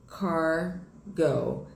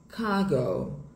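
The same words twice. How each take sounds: First: The r after the first vowel is strongly pronounced. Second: The r after the first vowel is light and soft. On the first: "em inglês americano" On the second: "Em inglês britânico, ... esse R ele fica mais leve, fica mais soft"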